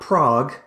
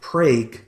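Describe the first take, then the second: First: The vowel sounds like the one in 'frog'. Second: The vowel sounds like the one in 'vague'. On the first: This is how the European capital is said. The speaker calls it wrong. "not Prague" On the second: This is how the Oklahoma town is said. The speaker calls it right. "but Prague, Oklahoma"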